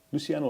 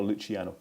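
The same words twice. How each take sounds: First: Luciano with an s sound, not ch; first option: "Luciano" with c as s; soft-c pronunciation. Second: Luciano with a ch sound, not s; second option: "Luciano" with c as Italian ch; Italian pronunciation. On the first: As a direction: say Luciano as "Loo-see-AH-no". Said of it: "Luciano or Luciano". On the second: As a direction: say Luciano as "Loo-chee-AH-no". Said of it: "putting on an Italian accent". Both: Shown as a demonstration.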